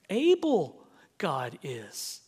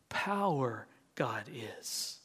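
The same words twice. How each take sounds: First: Slow, lightly voiced Yoda; a hint of the Jedi master, slowly. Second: Slow whisper of Power God is. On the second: Shown as a demonstration. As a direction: breathe it out slowly, unvoiced. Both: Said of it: "the way Master Yoda speaks".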